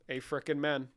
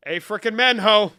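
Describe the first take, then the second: First: Said in the usual way. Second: High, hollered amen; rousing mock-preacher shout; loud amen cheer.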